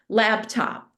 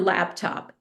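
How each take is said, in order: First: The middle consonant is a b sound. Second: The middle consonant is a p sound. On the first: The speaker calls it wrong. "mispronounce it" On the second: The speaker calls it right. "it's a not a b in that word"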